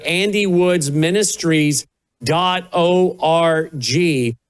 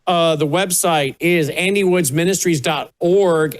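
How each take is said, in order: First: Slowly, every word clear; slow, spelled-out repeat. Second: Said in the usual way. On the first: Shown as a demonstration. Host repeats the website slowly for listeners. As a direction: give the web address slowly so listeners can write it.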